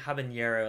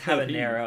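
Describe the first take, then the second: First: The n is said as a 'ny' sound. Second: The n is said as a plain n. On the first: The speaker calls it wrong. "I keep saying habanero, like jalapeno" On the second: The speaker calls it right. "but it's habanero"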